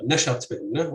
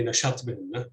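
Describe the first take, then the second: First: نشط بهن stressed on the second syllable. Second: نشط بهن stressed on the initial syllable; stress on first syllable. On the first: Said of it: "stress can optionally fall on the second syllable". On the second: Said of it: "stress defaults to the initial syllable". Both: Shown as a demonstration.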